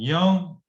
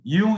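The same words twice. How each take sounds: First: The name is said with an English pronunciation. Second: The name is said with a German pronunciation. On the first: "in English" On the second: "in German pronunciation"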